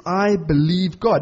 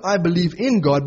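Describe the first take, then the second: First: "I believe God" said slow, no "in"; slow, deliberate "I believe God"; stress on God. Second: Said in the usual way. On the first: Shown as a demonstration. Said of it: "Not, "I believe in God".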